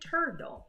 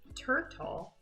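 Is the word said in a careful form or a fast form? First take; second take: fast; careful. First: The word is said quickly in a reduced form. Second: The word is said slowly in a careful form. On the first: "when we're talking fast ... like this" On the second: "instead of saying turtle"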